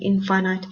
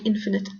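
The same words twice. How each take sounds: First: The word ends like 'finite', stress on second syllable. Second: The word ends like 'definite', stress on first syllable. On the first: "I like to use the pronunciation infinite just so that you can remember easily that finite and infinite work together" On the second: "You can pronounce the word infinite"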